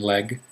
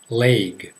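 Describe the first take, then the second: First: The vowel is a short E sound. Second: The vowel is a long A sound. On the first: "some people pronounce them like egg and leg" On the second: "most people pronounce them like a long A"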